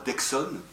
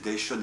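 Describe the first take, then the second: First: The middle consonant is a 'ks' sound. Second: The middle consonant is a 'sh' sound. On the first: It is the common way people say it. The speaker calls it wrong. "et non pas d'Exon" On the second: It honours the man's Occitan origin. The speaker calls it right. "je me plais à prononcer d'Eschon"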